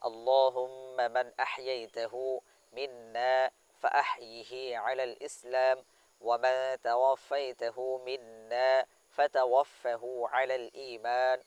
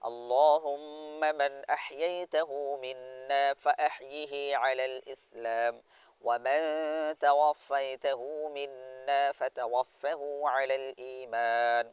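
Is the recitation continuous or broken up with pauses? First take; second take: paused; continuous. First: It is recited slowly with pauses between phrases. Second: It is recited smoothly without added pauses.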